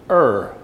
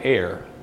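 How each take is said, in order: First: The vowel sounds like the one in 'fur'. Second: The vowel sounds like the one in 'fair'. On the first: This is how it is said in England. "the correct pronunciation in England is err" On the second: This is the speaker's usual way of saying it. "I have always called it air"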